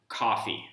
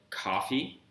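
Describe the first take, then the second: First: The pitch stays flat and level throughout. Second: The pitch rises across the word. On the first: It means coffee. "this flat tone" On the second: It could mean something else entirely. "you could put a rising tone on the word coffee"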